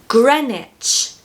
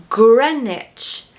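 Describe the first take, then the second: Both takes have the same delivery.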